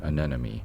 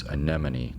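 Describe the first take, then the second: First: "anemone" with m and n swapped; mispronunciation. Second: "anemone" with m before the final n; correct pronunciation. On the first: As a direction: garble "anemone" into uh-NEN-uh-mee. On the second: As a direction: say "anemone" as uh-NEM-uh-nee. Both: Shown as a demonstration. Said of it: "I have trouble pronouncing it".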